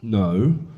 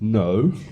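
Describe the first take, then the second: Both takes have the same delivery.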